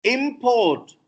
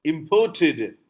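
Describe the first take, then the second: First: "Import" as IM-port, first syllable stressed; slow, stressed IM in "Import"; noun stress. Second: "imported" as im-PORT-ed; slow, stressed PORT in "imported"; verb stress. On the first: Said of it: "Import is noun". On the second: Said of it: "is verb". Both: Shown as a demonstration.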